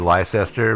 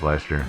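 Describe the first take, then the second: First: It is pronounced the way the spelling suggests. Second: It is pronounced differently from how it's spelled. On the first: The speaker calls it wrong. "it looks like it should be Leicester" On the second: The speaker calls it right. "I think it's pronounced Leicester"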